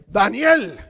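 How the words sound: The name is called sharply and firmly. Punishment is about to come. "antes de la correa"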